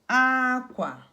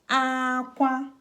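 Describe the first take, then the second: First: The first syllable is high, the second low. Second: Both syllables are on a high tone. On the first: It means cloth. "This is cloth. High, low" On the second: It means cry. "High, high. That's cry"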